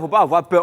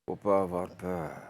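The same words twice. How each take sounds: First: It is spoken in a put-on regional accent. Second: It is spoken in a sly, vicious manner. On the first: "est-ce que tu peux le faire avec l'accent B T?" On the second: "avec un regard de vicelard"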